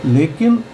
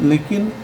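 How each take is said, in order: Both takes have the same delivery.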